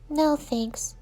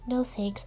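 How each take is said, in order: First: It is said at normal volume. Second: It is said quietly, voice lowered.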